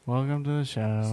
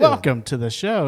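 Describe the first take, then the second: First: It is said flatly, with little energy. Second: It is said with more energy and excitement.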